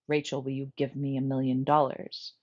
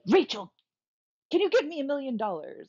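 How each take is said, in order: First: It is said in a flat, unchanging tone. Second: It is said with changed, lively tone and emphasis.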